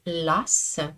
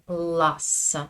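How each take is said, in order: First: The L is light and clear, French-style. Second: The L is hard and dark, Russian-style. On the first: "En français, on dit las" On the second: "En russe, on dit las. C'est un autre son"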